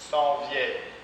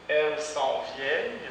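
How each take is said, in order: First: The pronoun elles is dropped entirely. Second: The pronoun elles is fully pronounced.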